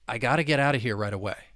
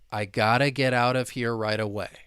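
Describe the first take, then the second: First: The sentence is spoken fast. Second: The sentence is spoken slowly. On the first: "if we were to say it faster" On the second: "I will say it slowly"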